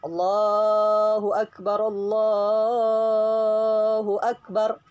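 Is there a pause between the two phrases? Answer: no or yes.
no. The two phrases run together without a pause. The speaker calls it right. "Tapi langsung"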